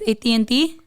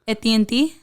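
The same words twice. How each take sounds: No difference in how they are said.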